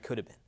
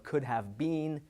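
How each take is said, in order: First: The words are reduced and run together. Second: Each word is said fully and separately.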